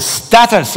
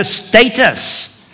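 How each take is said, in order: First: Status said as STAT-us with a short a; corrected pronunciation. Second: Status said as STAY-tus with a long ay; first pronunciation. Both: Shown as a demonstration. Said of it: "I think is the way we should say it here".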